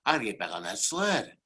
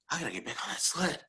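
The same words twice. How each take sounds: First: Said in the usual way. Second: Higher, softer, quicker repeat; fast, hushed urging to himself; urgent self-talk. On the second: Retold or imitated. Luger psyching himself up for the sled, urgent.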